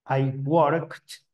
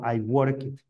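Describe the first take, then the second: First: The ending is a short 't' sound. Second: The ending is an extra 'id' syllable. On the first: The speaker calls it right. "va a sonar como una T" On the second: The speaker calls it wrong. "yo no digo I work it, nunca"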